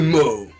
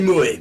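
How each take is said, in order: First: It is said as one syllable, like 'mo'. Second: It is said as two syllables, 'mo-é'. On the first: The speaker calls it wrong. "mais moi je dis ce que je veux" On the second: The speaker calls it right. "je sais très bien que ça se dit moé"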